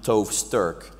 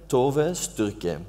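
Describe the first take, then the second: First: The surname ends without a final vowel. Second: The surname ends with a sounded final vowel. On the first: The speaker calls it wrong. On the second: The speaker calls it right.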